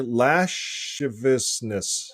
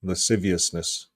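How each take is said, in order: First: "lasciviousness" drawn out as LASH-ih-vis-ness; mistaken pronunciation. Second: "Lasciviousness" as luh-SIV-ee-us-ness; correct pronunciation. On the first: Host guessing at the other word, "lasciviousness" as LASH-ih-vis-ness. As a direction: slowly sound out "lasciviousness" with "sh" and a dropped syllable. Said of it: "how do you say this word". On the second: Host copying the correct example, "Lasciviousness" as luh-SIV-ee-us-ness. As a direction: say "Lasciviousness" with a plain "s", stressing "siv". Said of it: "this is how you say it". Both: Shown as a demonstration.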